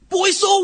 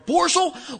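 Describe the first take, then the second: First: The name is said without an R sound. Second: The name is said with an R sound. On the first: "my boss could never say boy soul" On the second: "He always stuck an R in there"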